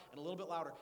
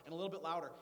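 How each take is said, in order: Both takes have the same delivery.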